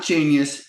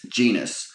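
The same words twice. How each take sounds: First: "Genius" said as JEEN-yus, high pitched; "Genius" with a y-glide before the ending; contrasting pronunciation. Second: "Genus" said as JEE-nus, falling tone; "Genus" set down firmly as the right word; corrected pronunciation. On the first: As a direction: stress "Genius" slowly as the wrong word. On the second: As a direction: say "Genus" in two syllables, no y-glide. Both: Shown as a demonstration. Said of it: "not Genius, Genus".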